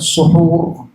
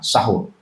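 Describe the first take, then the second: First: The first vowel is an 'u' sound. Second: The first vowel is an 'a' sound. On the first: The act of eating the pre-dawn meal. "dengan dhammah" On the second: The food eaten at the pre-dawn meal. "bisa dibaca fathah"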